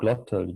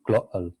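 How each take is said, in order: First: The middle consonant is a clear T sound. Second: The middle consonant is a glottal stop. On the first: "instead of saying glottal" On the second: "you would say glottal. So the sound comes from actually from the uh, larynx"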